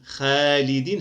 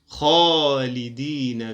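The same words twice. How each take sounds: First: The kh sound is light and thin. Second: The kh sound is heavy and full-mouthed. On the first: The speaker calls it wrong. "لا نقول خالدين خالدين، هذا خطأ" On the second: The speaker calls it right. "نقول خا خالدين فيها"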